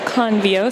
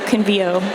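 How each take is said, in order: First: The stress is on the first syllable. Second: The stress is on the second syllable. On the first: The speaker calls it wrong. "they reach for convict, and so convio seems like a, a natural stress" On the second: The speaker calls it right. "we put the stress on the second to the last syllable"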